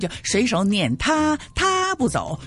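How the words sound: The pronoun 他 carries the main stress. The speaker calls it wrong. "他就把那个突出那个第一声，因此呢就读的意思就不对了"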